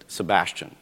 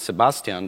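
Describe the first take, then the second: First: The name is pronounced the English way. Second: The name is pronounced the German way. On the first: "pronounced according to the English pronunciation rules" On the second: "So not"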